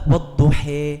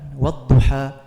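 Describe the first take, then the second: First: The final vowel is raised close to e. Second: The final vowel is a plain open a. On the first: "pakai imalah" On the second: "riwayat Hafiz An-Nasim yang sering kita baca"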